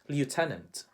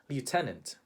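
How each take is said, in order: First: It is said with a Filipino accent. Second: It is said with a Filipino accent.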